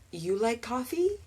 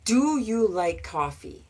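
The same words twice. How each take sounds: First: Mock learner asking without do; learner's mistake. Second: Said in the usual way. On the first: Shown as a demonstration. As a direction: play the student who drops the helper verb. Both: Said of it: "Which doesn't really work".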